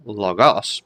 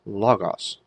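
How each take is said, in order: First: "logos" stressed on GOS, the second syllable; wrong-syllable stress. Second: "logos" stressed on LO, drawn out and falling at the end; stress on first syllable. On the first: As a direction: punch the end: lo-GOS. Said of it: "not logos". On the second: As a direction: say LO-gos slowly, first syllable strong. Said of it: "make sure the accent's on that first syllable". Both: Shown as a demonstration.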